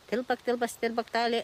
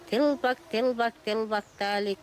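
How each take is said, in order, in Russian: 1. Стишок произносится быстрее. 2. Стишок произносится в умеренном темпе.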